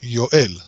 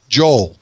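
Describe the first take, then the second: First: The name begins with a Y sound. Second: The name begins with a J sound. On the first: The speaker calls it right. "You say it with a Y" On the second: The speaker calls it wrong. "people write in English Joel. That's incorrect"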